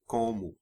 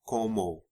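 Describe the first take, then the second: First: The final vowel is weakened to a 'u' sound. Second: The final vowel is a full 'o' sound. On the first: The speaker calls it right. "but it's como" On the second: The speaker calls it wrong. "You don't usually hear como"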